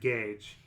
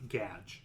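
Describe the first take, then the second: First: The name has a long 'ay' vowel. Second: The name has a short 'a' vowel. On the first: The speaker calls it wrong. "they must pronounce it Gage" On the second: The speaker calls it right. "like gadget without the T"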